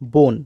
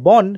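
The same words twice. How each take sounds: First: The vowel is an 'o' sound. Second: The vowel is an open 'a' sound. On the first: This is how people actually say it. "সেখানে আমরা বলি বন" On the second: This is how the spelling suggests it. "ব দন্তে ন বন"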